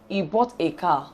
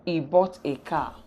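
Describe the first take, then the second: First: Bought made prominent in He bought a car; stress on bought. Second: "bought" lifted above the rest with a falling tune; stress on bought. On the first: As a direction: lean on the word "bought" in He bought a car. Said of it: "we can make "bought" very important". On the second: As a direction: pick out "bought" as the tonic word. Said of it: "but" automatically takes on the following tune". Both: Shown as a demonstration.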